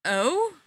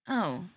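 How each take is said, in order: First: "Oh" said higher as a question. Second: Kind of sad. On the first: Spencer asking his ex what she means, questioning. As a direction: lift "Oh" upward, asking for more. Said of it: "Spencer asks". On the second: Ex-girlfriend to Spencer about his puppy, kind of sadly. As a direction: let "Oh" drop with a touch of sadness. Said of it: "kind of sadly". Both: A narrator's reading.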